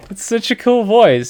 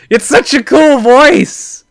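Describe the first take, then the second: First: Higher but settling down; calmer excited repeat. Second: Much higher, slow, louder fanboy gush; excited gush. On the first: Fan repeating praise to viewers, calmer excitement. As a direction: still excited but easing off. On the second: Fan telling viewers about the voice, excited. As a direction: squeal it like a starstruck fan. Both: Real, not acted. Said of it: "sorry, I get a little excited".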